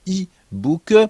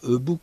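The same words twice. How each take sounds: First: The first letter is said like English 'e'. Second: The first letter is said like French 'e'. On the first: The speaker calls it right. "on dit e-book" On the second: The speaker calls it wrong. "On ne dit pas e-book"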